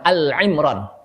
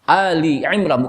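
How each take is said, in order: First: No vowel comes between 'Al' and 'Imran'. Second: An 'i' vowel joins 'Al' to 'Imran'. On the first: The speaker calls it wrong. "bukan Al-Imran" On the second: The speaker calls it right. "Ali Imran, bukan Al-Imran"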